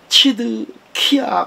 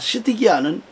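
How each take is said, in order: First: The name is said in its original-language form. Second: The name is said in its familiar Korean form.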